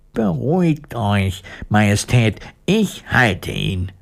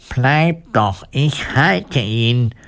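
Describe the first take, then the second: First: Steady reassurance, slowing at the end; reassuring. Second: Drawn-out, higher call without shouting. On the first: Woodcutter holding the dog, reassuring the queen. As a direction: settle down to a calm, measured close. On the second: Woodcutter to fleeing mice, a mild call. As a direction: stretch the words out to those fleeing. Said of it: "rief den Mäusen zu". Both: A narrator's reading.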